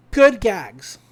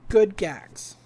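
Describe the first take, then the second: First: Chuckling while praising; laughing. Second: Said in the usual way. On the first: Real, not acted. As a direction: laugh through the words.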